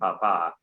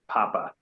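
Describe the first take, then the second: First: The word is said with a French pronunciation. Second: The word is said with an English pronunciation. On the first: "I'm going to give it the French pronunciation" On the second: "and not Papa"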